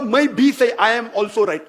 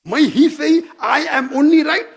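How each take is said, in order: First: भी lifted with a light rise, easy tone; stressing भी. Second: ही hit louder and higher, "I am only right" drawn out slowly; stressing ही. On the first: Showing his inclusive view, rising on भी. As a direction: lean gently on भी. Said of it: "मैं बोलता हूँ". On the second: Showing the exclusive claim, hitting ही hard. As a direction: press on ही, slow and arrogant. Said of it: "दोनों में फर्क है". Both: Shown as a demonstration.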